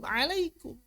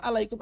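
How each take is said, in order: First: "Alaikum" squeezed from the throat; high, softer "Alaikum" with pharyngeal ain; proper ain. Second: "alaikum" starting on a plain a; mock the misread "alaikum", throat relaxed; "alaikum" with no ain squeeze; ain read as hamzah. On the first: Shown as a demonstration. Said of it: "Kok alaikum?". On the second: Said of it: "Ain dengan hamzah pun kadang-kadang nggak dibedakan".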